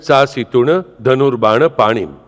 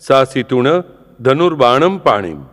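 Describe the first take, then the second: First: The word dhanurbana ends without an m. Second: The word dhanurbana ends with an added m. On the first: The speaker calls it right. "ખરેખર તો અમારે શું કહેવું જોઈએ?" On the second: The speaker calls it wrong. "ઘણા લોકો ભૂલથી શું કહે છે?"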